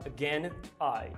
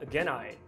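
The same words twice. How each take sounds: First: The two words are said separately. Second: The two words are joined smoothly together. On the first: The speaker calls it wrong. "Ele não fala again I" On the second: The speaker calls it right. "ele fala again I"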